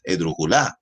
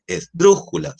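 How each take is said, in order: First: "esdrújula" stressed at the end, es-dru-ju-LÁ; deliberately misplaced last-syllable stress on "esdrújula"; wrong stress on LÁ. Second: "esdrújula" with a high punched "drú", then falling; high, emphatic "drú" in "esdrújula"; correct stress on DRÚ. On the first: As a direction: push the voice onto the final "la" of "esdrújula". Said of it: "ni es esdrújula". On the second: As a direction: hit es-DRÚ-ju-la high on the third-last syllable. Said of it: "un tema con el oído". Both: Shown as a demonstration.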